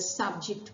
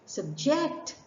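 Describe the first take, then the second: First: The stress is on the first syllable. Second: The stress is on the second syllable. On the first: A topic or area of study. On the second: To force someone to undergo something difficult.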